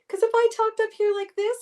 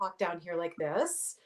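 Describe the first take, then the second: First: It is said in a high-pitched voice. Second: It is said in a low-pitched voice.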